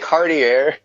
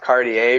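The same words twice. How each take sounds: First: The name is not said like the brand. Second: The name is said like the jewelry brand. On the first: The speaker calls it wrong. "I I always say Cartier" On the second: The speaker calls it right. "it's pronounced Cartier because it's supposed to be like based off the actual thing"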